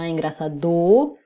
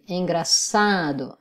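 First: The stress falls off the second-to-last syllable. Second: The stress is on the second-to-last syllable. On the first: The speaker calls it wrong. "On ne dit pas engraçado" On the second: The speaker calls it right. "on dit engraçado, avant dernière syllabe forte"

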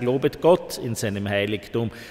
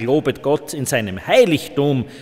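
First: The word Gott is stressed. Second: The word Heiligtum is stressed. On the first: It is God, not someone else, who is to be praised. "Man kann fragen, ob das sinnvoll ist, ... wen sollen wir loben als Gott?" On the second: God is to be praised in the sanctuary, not elsewhere. "da wird die Jägerschaft daherkommen und sagen, ich lobe Gott im Wald"

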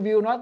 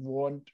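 First: It is said as two full words. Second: It is said as one contracted word. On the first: "will, not เนี่ยมันจะแปลงร่างเป็น" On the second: "แปลงร่างเป็น won't"

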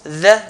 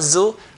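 First: The consonant is a soft 'th' sound. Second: The consonant is a buzzing 'z' sound. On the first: The speaker calls it right. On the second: The speaker calls it wrong. "not zu"

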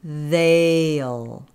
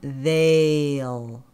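No difference in how they are said.

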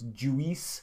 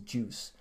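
First: The word is split into two syllables. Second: The word is said as one syllable. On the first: The speaker calls it wrong. "they often try to make it two syllables" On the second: The speaker calls it right. "So the word is juice"

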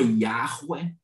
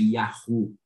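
First: The name ends with a 'weh' syllable. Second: The name ends with an 'oo' syllable. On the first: "Uma é Yahweh" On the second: "E a outra que pode ser defendida também academicamente é Yahu"

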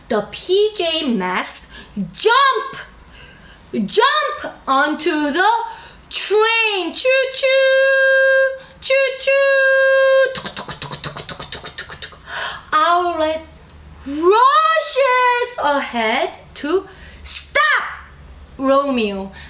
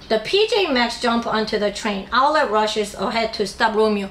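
First: It is read in a lively, expressive voice. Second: It is read in a flat, unchanging tone.

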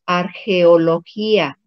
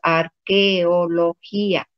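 First: The middle consonant is a throaty J sound. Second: The middle consonant is a hard K sound. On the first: The speaker calls it wrong. "no decimos arqueología" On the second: The speaker calls it right. "decimos arqueología"

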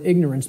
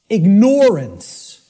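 First: The word 'ignore' is not heard inside it. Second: The word 'ignore' is clearly heard inside it. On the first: The link to ignoring goes unnoticed. The speaker calls it wrong. "the impact of the word is almost lost to us" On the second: It means choosing to ignore the truth. The speaker calls it right. "Then people will hear the word ignore in it"

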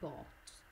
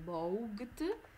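First: The middle is a plain o vowel sound. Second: The letters gh are sounded in the middle. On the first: The speaker calls it right. "ma si legge semplicemente bought" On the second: The speaker calls it wrong. "non si legge bought"

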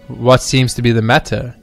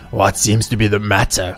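First: It is said in a plain normal voice. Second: It is said in a scary evil man voice.

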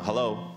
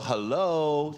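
First: The word is said short and quick. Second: The word is drawn out and lengthened. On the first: It is a normal, polite greeting. The speaker calls it right. "你普通讲快点" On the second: The listener seems not to be paying attention. The speaker calls it wrong. "感觉上是你没有在听我"

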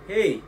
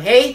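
First: The voice is fuller, with more bass. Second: The voice is thin and shrill.

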